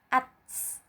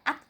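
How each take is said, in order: First: The final consonant ends with a slight hiss. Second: The final consonant ends without any hissing sound. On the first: The speaker calls it right. "ada sedikit suara mendesis" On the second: The speaker calls it wrong. "bukan dibaca at saja"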